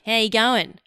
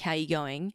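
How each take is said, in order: First: Words run together in a thick Australian accent. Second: Words are pronounced separately, with a mild accent.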